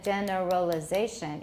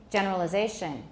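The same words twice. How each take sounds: First: The unstressed syllables are drawn out slowly. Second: The unstressed syllables are sped up quickly. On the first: The speaker calls it wrong. "Instead of generalization, which is too slow" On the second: The speaker calls it right. "we have to speed up some of the unstressed syllables"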